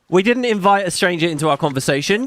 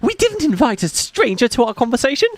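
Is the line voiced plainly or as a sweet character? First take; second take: plainly; sweet character. First: It is read plainly, with no character voice. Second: It is read in a sweet character voice, sounding mean.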